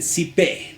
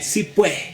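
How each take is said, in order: First: It is two syllables ending in an e sound. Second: It is two words ending in ue, no final s. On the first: This is how people in Peru say it. "En el lado de Perú dicen sipe" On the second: This is how people in Santa Cruz say it. "en Santa Cruz dirá si pue"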